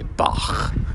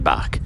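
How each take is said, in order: First: The name is said with a German-style pronunciation. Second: The name is said with an English-style pronunciation. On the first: "I don't bother using other people's accents half the time. Yeah. I don't say Bach" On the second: "I say Bach"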